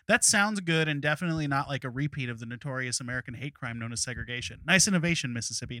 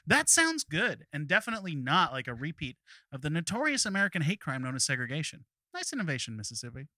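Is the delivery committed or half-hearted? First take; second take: half-hearted; committed. First: It is delivered half-heartedly, trailing off. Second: It is delivered with full comic commitment.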